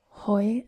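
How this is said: The vowel sounds like 'oi', Northern Irish style.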